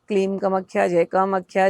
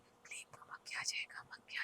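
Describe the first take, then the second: First: It is said loudly. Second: It is whispered softly.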